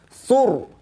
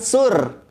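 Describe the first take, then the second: First: The r is pronounced heavy and thick. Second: The r is pronounced light and thin. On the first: The speaker calls it right. "tapi tebal" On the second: The speaker calls it wrong. "Bukan sur"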